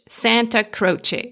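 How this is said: The name is said with English pronunciation. "and in English"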